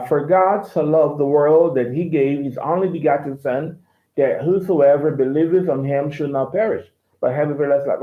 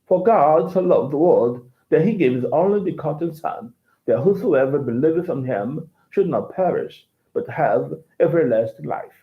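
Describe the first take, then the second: First: Lightly American reading of the verse; mild General American accent; American English. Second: Understated British English accent. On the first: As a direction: read it in a plain American accent. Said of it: "in American English". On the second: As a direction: read the verse as a Brit would. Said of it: "British accent". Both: Shown as a demonstration.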